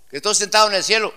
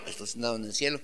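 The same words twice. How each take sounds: First: High, loud and fast; excited preacher's cry; fast loud proclamation. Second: Quiet, lowered repeat; hushed preacher's restatement; soft echo. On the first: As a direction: rush it out with fervor. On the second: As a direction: echo it back gently to yourself. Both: Shown as a demonstration.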